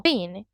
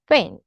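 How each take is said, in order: First: "thin" with tongue between the teeth for TH; standard TH. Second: "thin" said with an F, as "fin"; TH fronting. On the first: Teacher gives standard form, "thin" with TH. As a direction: keep the TH in "thin". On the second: Teacher shows Cockney, "thin" said as fin. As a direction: swap the TH of "thin" for F. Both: Shown as a demonstration. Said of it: "T H fronting".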